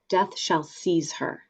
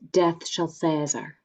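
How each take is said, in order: First: It is said in modern English pronunciation. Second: It is said in original Shakespearean pronunciation.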